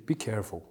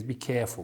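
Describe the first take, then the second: First: Said in the usual way. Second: Put-on careful with a Kazakh accent, R weakened; hint of Kazakh accent on "careful". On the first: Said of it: "she doesn't say". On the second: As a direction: lightly imitate a Kazakh-accented announcer saying "careful". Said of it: "Kazakh girl's voice with an accent".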